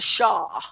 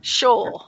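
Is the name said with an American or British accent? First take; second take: American; British. First: The name is said with an American pronunciation. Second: The name is said with a British pronunciation. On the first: "As opposed to" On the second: "How do you say it in the UK?"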